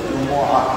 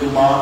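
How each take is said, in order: First: A glottal catch follows the m sound. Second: The m is short with a long vowel after. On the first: The speaker calls it right. "আসল হচ্ছে জুমআহ, পরিষ্কার।" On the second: The speaker calls it wrong. "কেউ বলে ফেলি জুমা"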